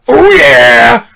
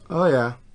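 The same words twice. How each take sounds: First: It is said like the Kool-Aid Man. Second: It is said in his normal voice.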